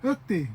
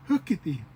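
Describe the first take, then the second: First: "Hookty" squeezed into two syllables; west side, faster. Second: "Hookity" in three syllables, with the middle -i-; full form. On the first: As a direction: drop the middle vowel in "Hookty". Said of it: "a little bit faster". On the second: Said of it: "the more longer way". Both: Shown as a demonstration.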